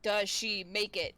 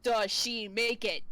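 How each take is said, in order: First: Drawn-out low query; deep slow does she make it; low slow question. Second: Same low slow question, a touch louder; low, slow, repeated does she make it. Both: Real, not acted.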